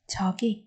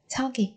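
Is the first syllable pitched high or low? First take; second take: low; high. First: The first syllable is pitched low. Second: The first syllable is not pitched low. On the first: The word is read inside a sentence. "đọc thấp giọng ở cái âm tiết đầu tiên" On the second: The word is read on its own. "Ngữ điệu khi mà chúng ta đọc rời rạc tách rời ra"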